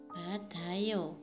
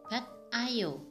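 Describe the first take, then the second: First: The consonant runs smoothly into ayo as d. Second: There is a break with a hard t before ayo. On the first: The speaker calls it right. "Karena disambung" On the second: The speaker calls it wrong. "bat ayo, tapi salah"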